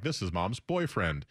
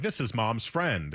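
First: Put-on "boyfriend" drawn out and weighted, falling; slow quote, leaning on "boyfriend"; stress on boyfriend. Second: "friend" drawn out with a falling tune; slow quote, landing on "friend"; stress on friend. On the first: Contrasting boyfriend with friend. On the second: Retold or imitated. Contrasting friend with boyfriend.

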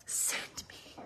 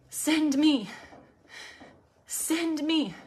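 First: Barely voiced, reverent whisper; whispered plea. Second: Higher, fully voiced plea. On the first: Preacher voicing a prayer to God, whispered plea. Prayer quote, first said hushed. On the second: Preacher repeating the prayer to God, high voiced plea. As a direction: lift the offer up out of the whisper.

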